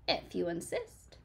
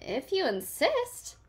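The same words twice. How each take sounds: First: Softer, cool and calm; yellow jacket voice. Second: High, slow and sweet; friendly bug sweetly accepts a fight. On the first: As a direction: answer coolly, showing a stinger. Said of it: "said the yellow jacket". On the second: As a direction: answer sugary sweet, unbothered. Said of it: "answered the friendly ladybug sweetly". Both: A narrator's reading.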